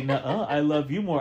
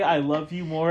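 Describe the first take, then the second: First: "you" lightly pushed in "I love you more", teasing; playful nuh-uh, then lean on "you"; stress on YOU. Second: "I" lightly pushed in "I love you more"; stress on I. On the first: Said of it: "and you say". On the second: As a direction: lean on the word "I", the rest even. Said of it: "anytime I say". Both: Retold or imitated.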